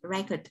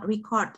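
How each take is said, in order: First: The stress is on the first syllable. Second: The stress is on the second syllable. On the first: It is the noun meaning a record. "danh từ trọng âm nó lại rơi vào âm tiết thứ nhất" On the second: It is the verb meaning to record. "trọng âm rơi vào âm tiết thứ hai thì nó là động từ"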